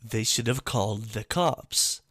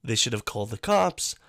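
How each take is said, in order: First: "have" lifted and stretched; "they should have called the cops" with weight on have; stress on have. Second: "cops" punched with a rise; "they should have called the cops" landing on cops; stress on cops. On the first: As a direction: lean on "have", let cops fall away. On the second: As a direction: hit "cops" as the point. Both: Real, not acted.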